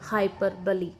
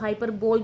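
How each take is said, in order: First: The word ends with an 'ee' sound. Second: The word ends with an 'ole' sound. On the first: The speaker calls it right. "The exact pronunciation of that word is हाइपरबली" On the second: The speaker calls it wrong. "आप में से कई शायद उसको हाइपरबोल भी pronounce करते होंगे"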